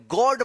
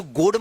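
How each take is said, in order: First: गॉड said with an open aw sound; correct pronunciation. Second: गोड said with a long closed o, the wrong way; wrong pronunciation. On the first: Teacher showing students the right reading of God. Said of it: "गॉड पढ़िएगा". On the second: Teacher showing students the wrong reading of God. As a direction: show the mistake गोड with a plain o. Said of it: "इसको गोड मत पढ़िएगा". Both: Shown as a demonstration.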